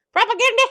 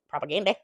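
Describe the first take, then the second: First: Sudden high shout of disbelief; high, loud indignant outburst; outraged shout. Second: Said in the usual way. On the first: Real, not acted.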